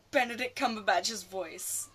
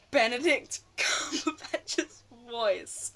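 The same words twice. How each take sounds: First: Said in the usual way. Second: Slow, drawn-out, giggling swoon over the name; fangirling swoon. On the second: Real, not acted. Fan swooning over Smaug's actor, slow laughing swoon. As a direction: melt into a giggle as you savour each word. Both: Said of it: "I'm just fangirling now".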